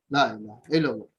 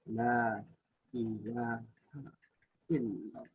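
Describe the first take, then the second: First: It is said quickly, without lingering. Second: It is said slowly, with feeling.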